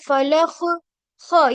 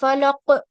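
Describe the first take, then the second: First: The final consonant is raspy, with friction in the throat. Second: The final consonant is a hard stop without friction. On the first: The speaker calls it wrong. "ये खराश जो आ रही है ये ख का मखरज है" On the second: The speaker calls it right. "ये सही है"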